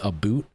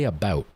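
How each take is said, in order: First: The vowel sounds like the one in 'boot'. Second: The vowel sounds like the one in 'bout'. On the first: This is how the world thinks Canadians talk. "the whole world thinks Canadians say Aboot" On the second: Most Canadians do not say it this way. "They don't say about"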